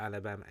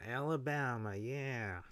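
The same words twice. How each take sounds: First: Said in the usual way. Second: Mock Alabama accent with stretched vowels. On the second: Shown as a demonstration. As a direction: draw out Alabama in a put-on Southern accent. Repeats state name in mock accent.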